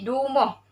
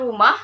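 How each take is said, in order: First: "dumuh" with D for R; Kelantan dialect pronunciation. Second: Said in the usual way. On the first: Shown as a demonstration. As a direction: start "dumuh" on a d, last vowel rounded. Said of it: "ditukar kepada huruf D". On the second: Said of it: "huruf R dalam perkataan rumah".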